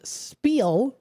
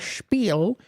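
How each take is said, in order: First: The word begins with a plain s sound. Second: The word begins with an sh sound.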